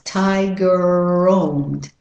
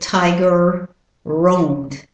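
First: The two words run together with one R. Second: There is a gap between the two words. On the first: The speaker calls it right. "So you drop one of the r's" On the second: The speaker calls it wrong. "Rather than tiger roamed. You don't need a space in the middle"

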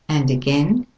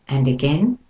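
Both takes have the same delivery.

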